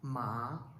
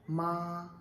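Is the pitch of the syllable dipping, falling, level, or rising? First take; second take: rising; level. First: The pitch rises from middle to high. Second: The pitch stays high, long and level. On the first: "second tone you must have to pronounce like it goes up" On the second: "First tone you must have to pronounce long and flat"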